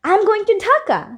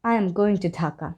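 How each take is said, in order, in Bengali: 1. এটি উত্তেজিত সুরে বলা হয়েছে। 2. এটি দুঃখিত সুরে বলা হয়েছে। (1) "শুনে কি মনে হবে যে আমি অনেক এক্সাইটেড ঢাকায় যাওয়ার জন্য" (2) "একটু স্যাড টোনের মনে হবে"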